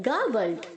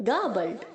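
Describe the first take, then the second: Both takes have the same delivery.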